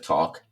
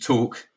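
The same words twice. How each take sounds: First: It is said with an American accent. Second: It is said with an English accent. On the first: This is how people around him spoke. "instead of talk" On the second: This is how he spoke when younger. "I used to talk"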